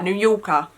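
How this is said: It is said in a British accent. The speaker calls it wrong. "You can't say it like you're British"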